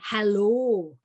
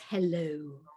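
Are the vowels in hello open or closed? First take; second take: open; closed. First: The vowels are said wide open. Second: The vowels are said more closed. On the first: This is how Welsh speakers say it. "We say hello" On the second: This is how Welsh speakers do not say it. "not hello"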